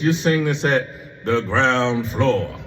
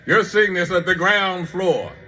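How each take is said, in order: First: It is said in a plain, ordinary way. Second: It is said in a dramatic, showy way.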